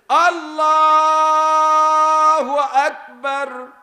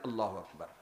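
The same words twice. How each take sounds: First: The words are stretched out slowly. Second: The words are said short and quick.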